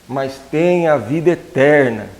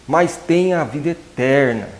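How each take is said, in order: Both takes have the same delivery.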